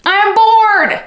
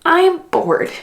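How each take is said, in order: First: Louder, higher whine of boredom; hammed-up bored wail; mock bored shout. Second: Said in the usual way. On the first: Reviewing a slow audiobook, shouting her boredom.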